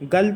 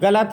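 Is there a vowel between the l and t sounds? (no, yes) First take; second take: no; yes. First: The l joins the t with no vowel between. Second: A full vowel is said between l and t. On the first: The speaker calls it wrong. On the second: The speaker calls it right.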